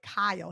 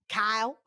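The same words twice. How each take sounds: First: The name is said in a plain accent. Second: The name is said in a Texan drawl. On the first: "he's not been saying it like Kyle" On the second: "like you're from Texas"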